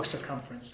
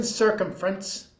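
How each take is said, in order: First: Said in the usual way. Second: Circumference with the emphasis misplaced; wrong-syllable stress. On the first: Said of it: "I mispronounced that". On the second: Real, not acted. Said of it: "put the emphasis on the wrong syllable".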